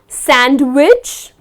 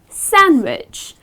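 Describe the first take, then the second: First: A d sound is heard in the middle. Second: No d sound is heard in the middle. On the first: The speaker calls it wrong. "So it's not sandwich" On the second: The speaker calls it right. "you do not pronounce the letter D"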